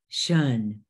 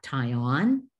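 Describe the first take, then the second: First: The suffix is said as one syllable, 'shun'. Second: The suffix is said as two syllables, 'tie on'. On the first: The speaker calls it right. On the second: The speaker calls it wrong. "not tie on"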